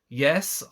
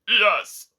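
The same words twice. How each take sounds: First: It is said in a croaky voice. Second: It is said in a clear, confident voice.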